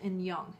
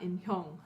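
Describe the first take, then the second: First: The h sound in the middle is silent. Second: The h sound in the middle is pronounced. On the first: The speaker calls it right. "that H sound is actually silented" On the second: The speaker calls it wrong. "It's not Inhyong, like I probably made a mistake on"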